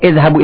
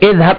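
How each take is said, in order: First: The word ends with a short u vowel. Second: The word ends on the consonant with no vowel. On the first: The speaker calls it wrong. "bukan idhhabu ila al-hammam. Itu kesalahan" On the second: The speaker calls it right. "Seharusnya sukun itu"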